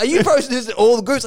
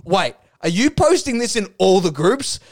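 First: Mildly indignant, higher-pitched retold question; mock accusing question; angry commenter. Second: Said in the usual way. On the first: Commenter challenging posts in all groups, mock angry. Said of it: "he was angry". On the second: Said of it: "He's like".

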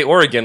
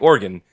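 First: "Oregon" with a middle vowel, OR-uh-gun; three-syllable Oregon. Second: "Organ" in two syllables, OR-gun; Oregon like organ. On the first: Host questioning co-host's pronunciation, "Oregon" as OR-uh-gun. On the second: Host copying co-host's Oregon, "Organ" as OR-gun. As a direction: drop the middle vowel, "Organ" as OR-gun. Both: Shown as a demonstration. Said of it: "you say Oregon like Organ".

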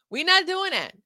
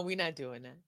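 First: Higher and louder, stress on not; emphatic we not doing that. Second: Said in the usual way. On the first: Acted. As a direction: hit not hard and loud.

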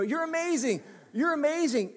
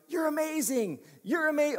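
First: Said in the usual way. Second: Put-on a light American accent, upbeat praise; mild American-style gush on amazing. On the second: Preacher mimicking how an American praises, light American accent. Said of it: "that's how an American would say".

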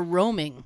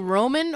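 First: "roaming" ending in a clear ng; roaming with final ng. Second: "Roman" ending in a plain n; Roman with final n. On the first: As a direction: say "roaming", closing on ng, not n. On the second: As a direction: say "Roman", closing on n, no ng. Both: Shown as a demonstration. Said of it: "Are you saying Roman or roaming".

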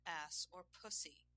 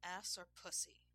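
First: Slow, spaced-out question; slower repeated demand. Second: Firm demand for an answer. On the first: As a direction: draw out each option firmly. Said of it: "he repeated". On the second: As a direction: put the choice firmly. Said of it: "he demanded". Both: A narrator's reading.

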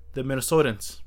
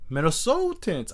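First: Said in the usual way. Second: A failed stab at a Minnesota accent; attempted Minnesota accent. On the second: Shown as a demonstration. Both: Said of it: "I can't do the accent".

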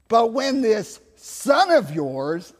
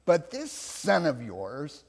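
First: Loud, slow, pointed accusation; disowning resentment. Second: THIS leaned on, then the rest slow and falling away; slow, pointed THIS at ordinary volume; stress on THIS. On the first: Elder son disowning his brother to his father, loudly resentful. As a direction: throw THIS SON OF YOURS out high and drawn out. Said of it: "I always love it, not, not your". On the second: Preacher replaying the elder son's disowning words, THIS stressed. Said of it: "not my brother". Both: Acted.

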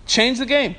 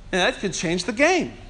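First: Change the game, each word hit firmly; emphatic repeat. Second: Said in the usual way. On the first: Shown as a demonstration. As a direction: land "game" with weight.

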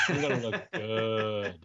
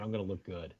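First: GOOD stretched long and slow; slow, relished stretch on "good"; drawn-out GOOD. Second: Said in the usual way. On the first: Acted. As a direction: linger hard on the word good. Repeats it drawn out for effect.

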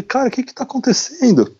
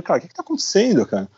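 First: Breathy whispered question with no voice; retold whisper. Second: Quick, higher-pitched alarmed question; retold panic. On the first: Traveler frightened by the knock, whispering to himself. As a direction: whisper it as if scared to be heard. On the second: Traveler startled by the soldier, fast alarmed blurt.

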